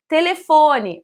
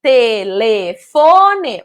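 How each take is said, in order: First: Said in the usual way. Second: "telefone" drawn out slowly in separate syllables. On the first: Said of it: "sintetizar e unir, em formar uma palavra". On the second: Shown as a demonstration. Teacher giving children a word to join up, "telefone" syllable by syllable. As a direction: break "telefone" into slow, clear syllables. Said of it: "eu vou dizer os nomes que representam essas figuras de uma forma silabada".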